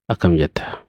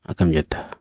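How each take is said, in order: The two takes are said the same way.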